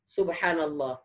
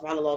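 First: It is said slowly and carefully pronounced. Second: It is said quickly and carelessly pronounced. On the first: The remembrance is performed properly and mindfully. The speaker calls it right. "Jauh lebih baik" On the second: The remembrance is rushed and loses its meaning. The speaker calls it wrong. "karena ingin cepat Anda akhirnya sembarangan"

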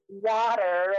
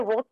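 First: It is said in an American accent. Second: It is said in a South African accent.

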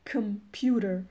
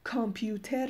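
First: The word is said the English way. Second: The word is said the Persian way. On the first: The speaker calls it right. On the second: The speaker calls it wrong.

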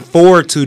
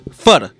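First: The two words are said separately and fully. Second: The two words blend into one reduced word. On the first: "instead of saying for to do" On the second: "in Gonzales, we say futter"

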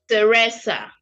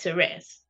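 First: The name ends with an added final vowel. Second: The name ends without an added final vowel. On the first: The speaker calls it wrong. "That's the worst one" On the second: The speaker calls it right. "every pronunciation of Therese except Therese"

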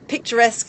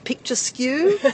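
First: The word ends with an 'esk' sound. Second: The word ends with a 'skew' sound. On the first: The speaker calls it right. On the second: The speaker calls it wrong.

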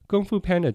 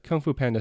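First: It is said the Mandarin way, with an unaspirated g. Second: It is said the English way, with a breathy k. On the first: This form would not attract audiences. "doesn't sound like a great movie" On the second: This familiar form attracts audiences. "sells movie seats"

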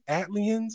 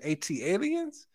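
First: The start is blended into one smooth word. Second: The start is spoken as separate letters. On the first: The speaker calls it wrong. "And she said it with such confidence" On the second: The speaker calls it right. "you mean AT aliens?"

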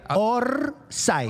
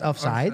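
First: Said as a Spanish-adapted orsay, without the final consonant. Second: Said in English form with the final consonant. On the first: This is how the term is used in Spanish. "we say orsay" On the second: This is the original English term. "That's offside"

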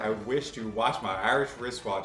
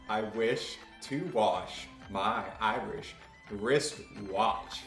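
First: It is said fast. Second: It is said at a normal pace.

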